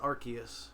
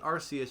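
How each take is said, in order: First: The C is hard, like a K. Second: The C is soft, like an S. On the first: The speaker calls it right. "like hard C" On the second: The speaker calls it wrong. "you got the Arse phone"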